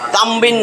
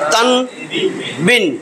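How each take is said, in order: First: The sound before the b is an m. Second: The sound before the b is an n. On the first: The speaker calls it wrong. "তামবিন না" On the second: The speaker calls it right. "এটা কিন্তু উচ্চারণ তান বিন"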